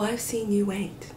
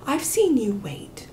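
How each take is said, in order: First: It is said in a cold, mean tone. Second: It is said in a warm, kind tone. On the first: The listener will be made to wait even longer. "I can't even say it mean, but I can" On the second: The waiting is sincerely acknowledged. "when I was being sincere and kind"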